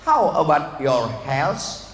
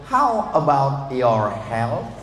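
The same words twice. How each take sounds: First: The word ends with an 's' sound. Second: The word ends with a soft 'th' sound. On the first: It asks how someone's hell is. The speaker calls it wrong. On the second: It asks how someone's health is. The speaker calls it right.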